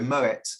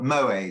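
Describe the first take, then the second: First: The final t is pronounced. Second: The final t is silent. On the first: The speaker calls it right. "it's a hard T" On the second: The speaker calls it wrong. "not Moe"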